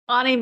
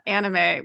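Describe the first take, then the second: First: The word is said with a Japanese-like accent. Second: The word is said with an American accent. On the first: "I definitely pronounce it anime" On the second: "not anime, which is the American way"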